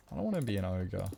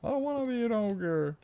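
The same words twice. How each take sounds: First: Said in the usual way. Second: Squeaky cartoon whine, much higher; high mock whimper; silly high voice. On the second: Shown as a demonstration. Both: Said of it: "repeats in silly voice".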